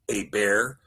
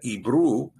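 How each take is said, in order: First: The name ends with an er sound. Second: The name ends with an oo sound. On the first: The speaker calls it wrong. "not Eber" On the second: The speaker calls it right. "Ebru is the correct way to pronounce it"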